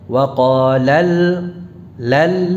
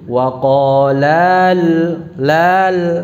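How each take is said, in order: First: The 'la' is short and pressed with stress. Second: The 'la' vowel is drawn out long. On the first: The speaker calls it right. "ada tekanan, artinya diangkat ya suaranya" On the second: The speaker calls it wrong. "Tidak dibaca panjang begini"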